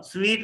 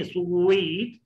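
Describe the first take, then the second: First: स्वीट said as "sveet"; short स्वीट with V instead of W; wrong V sound. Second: स्वीट stretched as "su-weet"; drawn-out स्वीट with a full W; rounded W. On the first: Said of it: "स्वीट नहीं". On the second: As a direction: say स्वीट gliding from rounded lips into a long "ee". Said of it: "डब्ल्यू के बाद दोनों में मिलाकर". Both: Shown as a demonstration.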